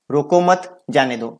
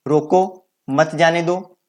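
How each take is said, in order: First: रोको मत run together, then a break before जाने दो; pause after मत. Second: रोको, then a break, then मत जाने दो run together; pause after रोको. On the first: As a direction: keep रोको with मत, stop briefly, then say जाने दो. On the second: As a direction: stop briefly right after रोको, keep मत with जाने दो. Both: Shown as a demonstration. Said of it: "विराम चिन्ह के प्रयोग से ही दोनों का अर्थ अलग-अलग".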